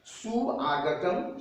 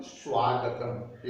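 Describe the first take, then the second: First: सुआगतम said very slowly, su and aa apart; separated vowels. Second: स्वागतम said slowly with su and aa fused into swaa; fuse स्वागतम into one swaa syllable; joined sandhi form. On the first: Teacher shows students the unjoined form सुआगतम. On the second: Teacher shows students the joined form स्वागतम. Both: Shown as a demonstration. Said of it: "एक साथ संयुक्त करके अगर उच्चारण कीजिए".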